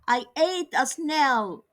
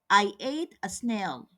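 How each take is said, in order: First: It is said with strong, excited feeling. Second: It is said in a calm, plain statement tone. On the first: It shows strong emotion about the fact. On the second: It simply states a fact.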